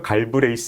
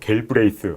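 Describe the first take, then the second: First: The name is said with plain Korean pronunciation. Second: The name is attempted with English-like pronunciation. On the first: "그냥 한국말로 할까요?" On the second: "이분이 발음하기 힘들어"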